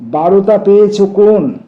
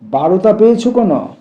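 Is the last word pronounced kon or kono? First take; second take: kon; kono. First: The last word ends on the n sound. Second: The last word ends with an extra o vowel.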